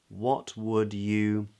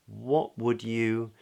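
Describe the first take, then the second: No difference in how they are said.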